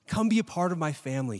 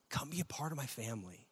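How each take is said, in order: First: Said in the usual way. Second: Softer, tender invitation in God's voice. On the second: Acted. Preacher voicing God to the congregation, soft and tender. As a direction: coax them in gently.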